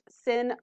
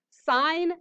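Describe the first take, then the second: First: The abbreviation is read aloud as 'sin'. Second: The word is said in full, as 'sine'. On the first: The speaker calls it wrong. "It is not sin" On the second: The speaker calls it right. "Sine, cosine, tangent"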